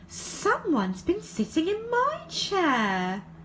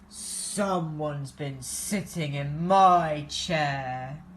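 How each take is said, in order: First: It is said in a high wailing voice. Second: It is said in a low growling voice.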